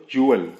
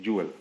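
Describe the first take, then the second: First: ज्वेल in two parts, "joo-ul"; careful reading. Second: ज्वेल run together quickly; quick reading. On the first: Teacher building the word, ज्वेल spoken carefully as "joo-wal". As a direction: sound out ज्वेल carefully, loudly. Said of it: "जल्दी पढ़ेंगे तो". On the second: Teacher showing the fast reading, ज्वेल said quickly. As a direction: say ज्वेल short, as one smooth word. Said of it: "जल्दी पढ़ेंगे तो ज्वेल भी पढ़ सकते हैं". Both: Shown as a demonstration.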